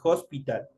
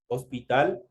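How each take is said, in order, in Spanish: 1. La palabra empieza con un sonido de h aspirada. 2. La palabra empieza con una h muda.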